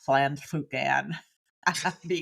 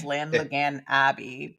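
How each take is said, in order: First: The name is said with Welsh-style sounds. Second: The name is said with English-style sounds. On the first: This is closer to how it is really said. The speaker calls it right. "I think it's like something like" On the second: This is the speaker's own easier version. The speaker calls it wrong. "I will say it as"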